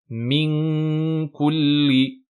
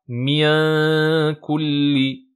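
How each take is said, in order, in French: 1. Le n est caché, il passe par le nez. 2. Le n n'est pas caché par le nez. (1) "la langue remonte bien... pour bloquer le son et le faire passer seulement par la cloison nasale" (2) "et pas"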